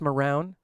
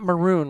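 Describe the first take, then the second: First: The second syllable rhymes with noun. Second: The second syllable rhymes with moon. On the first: The speaker calls it right. "It's Marown, I think" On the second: The speaker calls it wrong. "it's not maroon, right?"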